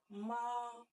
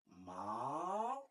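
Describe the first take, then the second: First: The pitch stays high and level. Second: The pitch dips low and then rises. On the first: It means mother. "le premier ton est manifesté par euh, les traits plats" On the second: It means horse. "il y a un truc qui descend et qui monte"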